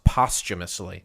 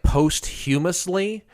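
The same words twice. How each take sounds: First: It is said with its usual standard pronunciation. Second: It is said as a literal, letter-by-letter reading. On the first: The speaker calls it right. "it's pronounced posthumously" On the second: The speaker calls it wrong. "it looks like posthumously"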